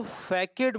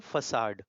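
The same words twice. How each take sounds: First: फैकेड said as "fay-ked", the wrong way; wrong pronunciation. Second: फसाड said "fa-saad", soft s, no k; correct pronunciation. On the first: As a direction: say फैकेड with a hard k, as the mistake. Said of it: "इसको फैकेड मत पढ़ना". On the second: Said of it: "इसको पढ़ते हैं फसाड". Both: Shown as a demonstration.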